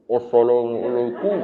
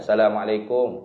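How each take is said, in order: First: It is said in a covered, altered voice. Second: It is said in a natural voice.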